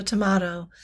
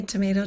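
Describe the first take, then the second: First: Tomato with an "ah" in the middle; tomato as to-MAH-to. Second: Tomato with an "ay" in the middle; tomato as to-MAY-to. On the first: Joking about two ways to say a word, tomato as to-MAH-to. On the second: Joking about two ways to say a word, tomato as to-MAY-to. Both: Shown as a demonstration. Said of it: "they say Pompey instead of Pompey".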